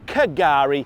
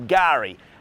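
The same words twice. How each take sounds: First: The starting K sound is pronounced. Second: The starting K sound is left silent. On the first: The speaker calls it wrong. "if you were to spell it phonetically" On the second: The speaker calls it right. "it's a silent K, so we say"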